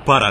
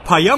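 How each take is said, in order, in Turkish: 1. R sesi açıkça telaffuz ediliyor. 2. R sesi y sesiyle değiştirilmiş. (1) "Ben R'leri söyleyebiliyorum. Tabii ki para diyeceğim" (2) "Paya mı diyeceğim oğlum?"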